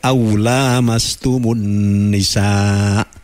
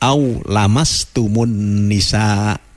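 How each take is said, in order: First: The vowel after the L is long. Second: The vowel after the L is short. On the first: The two touch each other. "bacaannya tidak" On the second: It is only a touch. "tapi dibaca"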